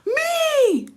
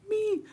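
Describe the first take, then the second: First: It is screamed. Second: It is said louder.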